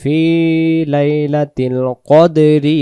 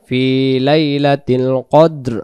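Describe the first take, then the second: First: The final word ends with an added vowel. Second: The final word ends on a bare consonant. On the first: The reciter keeps going without stopping. "দমটা ধরে যেতে পারবো তখন আমরা কদেরি পরে চলে যেতে হবে" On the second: The reciter stops and takes a breath here. "দমটা ছেড়ে দিলে"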